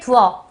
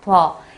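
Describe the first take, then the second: First: The two vowels are said as separate syllables. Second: The two vowels merge into one syllable. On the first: "여기에 두어" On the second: "우와 어가 만나서 워로 줄었습니다"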